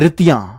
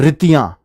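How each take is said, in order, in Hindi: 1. पहला स्वर छोटा और तेज़ है। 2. पहला स्वर छोटा और तेज़ है।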